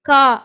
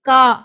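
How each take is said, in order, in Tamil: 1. கடைசி R ஒலி மௌனமாக இருக்கும். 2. கடைசி R ஒலி மௌனமாக இருக்கும்.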